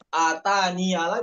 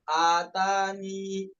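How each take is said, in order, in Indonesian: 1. Kata itu berakhir dengan vokal 'a' tambahan. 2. Kata itu berakhir dengan vokal 'i'. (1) "bukan atania lagi karena wakof" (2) "karena wakof"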